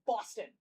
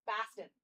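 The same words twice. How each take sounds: First: "Boston" with a rounded aw in the first syllable; Boston accent. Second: "Boston" with an open, fronted a in the first syllable; Boston accent. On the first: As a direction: say "Boston" as BAW-stun. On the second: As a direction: say "Boston" as BAH-stun. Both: Shown as a demonstration. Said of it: "The Boston accent's much different".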